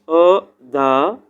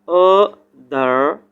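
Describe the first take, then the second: Both takes have the same delivery.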